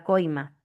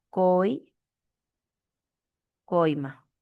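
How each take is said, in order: First: Said in the usual way. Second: "coi-" drawn out, long pause, then "coima"; broken into syllables. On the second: Shown as a demonstration. Teacher isolating the diphthong in "coima", slow and broken up. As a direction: hold "coi-" slowly and stop before finishing "coima".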